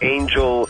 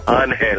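First: The name is pronounced the English way. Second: The name is pronounced the Spanish way. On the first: The speaker calls it wrong. "Not everybody goes Angel" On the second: The speaker calls it right. "You go Angel. I'm like, there you go"

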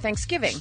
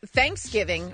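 First: The stress is on the second part, giving. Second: The stress is on the first part, thanks. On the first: "Are you more thankful or are you more a giver?" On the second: "Are you more thankful or are you more a giver?"

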